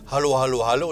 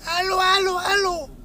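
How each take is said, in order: First: It is said in a natural voice. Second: It is said in a distorted, machine-like voice.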